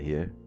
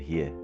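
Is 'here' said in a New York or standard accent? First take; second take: standard; New York. First: It is said with a standard accent. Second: It is said with a New York accent. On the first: "instead of here" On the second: "You do the here"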